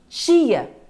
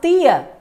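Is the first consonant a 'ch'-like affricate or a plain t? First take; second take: affricate; plain t. First: The t sounds like 'ch' before the i. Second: The t is a plain stop before the i. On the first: This is how speakers from Rio say it. "você vai ter o t e o x juntos... Esse tia nós observamos na pronúncia dos cariocas" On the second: This is how speakers from other regions say it. "Tem aqueles que falam tia. E aí é uma outra transcrição"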